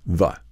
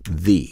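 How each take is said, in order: First: The word ends in a short 'uh' vowel. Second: The word ends in a long 'ee' vowel. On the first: A consonant comes next. "if what follows the is a is a consonant, then it will be the, pronounced like this" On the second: A vowel comes next. "if it's preceding uh, a word that begins with a vowel, then it's the, like this"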